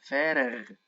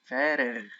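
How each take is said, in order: The two takes are said the same way.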